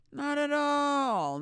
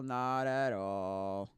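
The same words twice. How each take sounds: First: Much higher, slow, drawn out; mock high drawn-out denial. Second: Slow, sinking back down, drawn out; slow low drawn-out denial. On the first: Answering her own question, mock high and slow. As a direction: stretch it up high like a mocking singsong. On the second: Acted. Answering her own question, slow and settling low. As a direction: let it drop and drag at the bottom.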